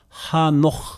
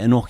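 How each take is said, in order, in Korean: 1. 이 이름은 h 소리로 시작합니다. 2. 이 이름은 모음 소리로 시작합니다. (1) "히브리어 발음은요 하녹" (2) "우리 성경은 에녹 영어에서도 에녹"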